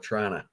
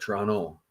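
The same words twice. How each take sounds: First: It is said the way central Canadians say it. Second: It is said the way eastern Canadians say it. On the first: This is how people from the middle of the country say it. "I always call it Toronto" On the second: This is how people in the east say it. "on in the east you call it Toronto"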